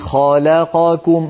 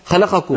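First: The syllables are evenly timed and unhurried. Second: The syllables are rushed together quickly. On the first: The speaker calls it right. "لابد أن نسوي بين أزمنة الحروف" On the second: The speaker calls it wrong. "ما نقول خلقكم"

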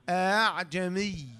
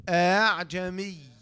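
The two takes are said the same way.

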